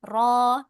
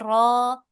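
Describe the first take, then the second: Both takes have the same delivery.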